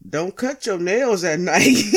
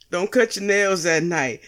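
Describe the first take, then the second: First: Holding back a laugh. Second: Said in the usual way. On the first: Shown as a demonstration. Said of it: "I couldn't even say the shit with a straight face". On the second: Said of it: "couldn't even say the shit with a straight face".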